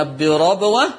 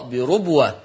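First: "بربوة" as birabwa, open ra; فتح الراء. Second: "بربوة" as birubwa, lower falling close; ضم الراء. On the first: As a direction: say "بربوة" with an a after the r. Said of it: "يقرأ بفتح الراء". ("بربوة" بفتح الراء) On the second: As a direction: say "بربوة" with ru, as Warsh reads. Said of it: "ورش بضم الراء". ("بربوة" بضم الراء) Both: Shown as a demonstration.

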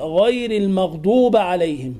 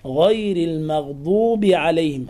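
First: "المغضوب" ending in ba, al-maghduba; fatha on ba. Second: "المغضوب" ending in bi, al-maghdubi; kasra on ba. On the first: Teacher mimics common error, "المغضوب" ending in a. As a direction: end "المغضوب" on a instead of i. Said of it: "ففتح الباء وهي مكسورة". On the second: Teacher gives correct reading, "المغضوب" ending in i. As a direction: end "المغضوب" on a clear short i. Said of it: "وهي مكسورة". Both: Shown as a demonstration.

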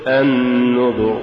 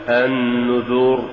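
First: النذر slow with a short damma; correct. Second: النذر with the damma drawn out slowly; wrong drawn-out النذر; faulty. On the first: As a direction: say النذر crisply. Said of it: "قل". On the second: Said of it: "ولا تقل". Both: Shown as a demonstration.

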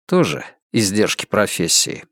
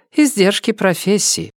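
First: Lower-pitched echo in a man's voice; man's low reply. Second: High-pitched woman's voice; woman's character voice. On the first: Dani echoes Emilia's excuse, in a lower man's voice. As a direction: drop the pitch to answer her in kind. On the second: Emilia excuses her disguises to Dani, in a high woman's voice. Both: A narrator's reading.

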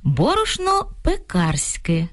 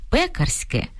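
First: «пекарське» stressed on the middle syllable as heard, slow; wrong stress quoted. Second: «пекарське» stressed on the first syllable, пЕкарське; dictionary stress. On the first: Ведучий повільно цитує почуту помилку з наголосом. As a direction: quote the mistake slowly. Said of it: "Довелося почути". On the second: Ведучий показує слухачам словниковий наголос пЕкарське. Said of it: "Словники фіксують наголос". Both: Shown as a demonstration.

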